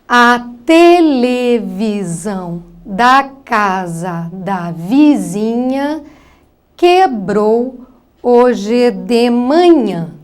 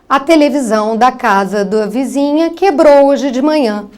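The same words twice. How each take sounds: First: Each syllable is read separately with breaks. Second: The words are read smoothly and fluently. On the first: The reader decodes syllable by syllable, which hinders comprehension. The speaker calls it wrong. "uma leitura extremamente silabada" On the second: The reader reads whole words automatically, which aids comprehension. The speaker calls it right. "de uma maneira automática"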